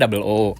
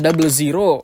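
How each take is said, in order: First: The number is said as the letter O. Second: The number is said as zero. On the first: The speaker calls it right. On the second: The speaker calls it wrong.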